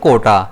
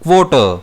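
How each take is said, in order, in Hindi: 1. यह साधारण k ध्वनि से शुरू होता है। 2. यह kw ध्वनि से शुरू होता है। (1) "इसे हम बेसिकली प्रोनाउंस करते हैं कोटा" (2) "लेकिन एक्चुअल में इसका प्रोनाउंसिएशन होता है क्वोटर"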